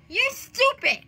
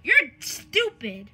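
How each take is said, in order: First: High-pitched, strange insult; high mock taunt; odd high voice. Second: Slow, drawn-out insult; slow-motion taunt in a usual pitch; odd drawl. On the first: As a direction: say it in a raised, odd voice. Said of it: "Why the heck am I talking like that?". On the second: Pretend. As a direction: drag the words out oddly. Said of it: "Why are you talking like that?".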